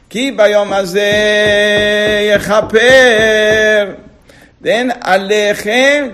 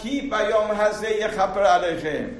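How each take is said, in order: First: There is a pause before the last word. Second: It runs straight on without a pause. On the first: The responsibility to become pure is on you. The speaker calls it right. "You have to read it like this" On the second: The day atones for you. The speaker calls it wrong. "You don't need it as"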